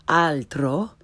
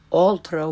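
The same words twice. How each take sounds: First: "altro" slowly, with open Italian ah; correct Italian pronunciation. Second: "altro" starting with English aw, as in all; learner's mispronunciation. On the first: Teacher corrects beginners, slow "altro" with Italian ah. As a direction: say "altro" as AHL-tro, rising. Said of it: "follow it with the correct pronunciation". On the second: Teacher shows beginners' mistake, "altro" with English aw. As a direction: say "altro" as AWL-troh. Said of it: "first the way most people". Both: Shown as a demonstration.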